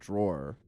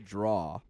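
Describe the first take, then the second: First: The word ends with a clear R sound. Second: The word ends without an R sound. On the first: "I have to like make myself say drawer" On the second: "I still say draw instead of drawer"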